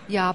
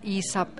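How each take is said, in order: First: The number is squeezed into one syllable. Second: The number is said as two full syllables. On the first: "you can compress the yi sub to ya" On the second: "Instead of saying yi sub"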